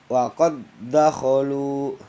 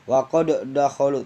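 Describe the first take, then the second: First: The d of qad merges into the next d. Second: The d of qad is bounced separately. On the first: The speaker calls it right. "Langsung ke dal yang hidup" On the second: The speaker calls it wrong. "ada kol-kolan yang nggak boleh"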